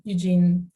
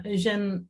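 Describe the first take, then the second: First: Eugene said the English way, "YOO-jeen", stress on the first syllable; English pronunciation. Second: Eugène said the Dutch way, stress on the last syllable "zhène"; Eugène with a French-Dutch "Uh-ZHEN" sound; Dutch pronunciation. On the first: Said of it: "Eugene in an English accent". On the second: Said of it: "Eugène with a Dutch, a Dutch accent". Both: Real, not acted.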